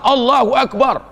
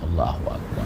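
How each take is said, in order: First: It is said loudly. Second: It is said softly.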